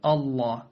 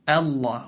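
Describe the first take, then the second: First: The opening hamza sounds heavy and thick. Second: The opening hamza sounds light and thin. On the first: The speaker calls it wrong. "ولا تقول الله" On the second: The speaker calls it right. "قل الله"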